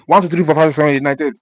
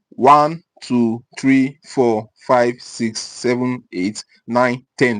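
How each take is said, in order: First: The numbers are counted at a fast pace. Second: The numbers are counted at a normal pace. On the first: The speaker calls it wrong. "if you start reading faster" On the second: The speaker calls it right. "There's a normal speed to read one to ten"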